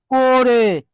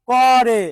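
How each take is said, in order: First: করে said "ko-re", closed o; o-sound pronunciation. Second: করে said "kaw-re", open first vowel; open-vowel pronunciation. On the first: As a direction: say করে with an o-kar, "ko-re". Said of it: "অসমাপিকা উচ্চারণটা কি?". (করে-কে ওকার দিয়ে "কোরে" উচ্চারণ) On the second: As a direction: say করে without o-kar, "kaw-re". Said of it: "উচ্চারণটা কি?". (করে-র ক-তে খোলা অ উচ্চারণ) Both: Shown as a demonstration.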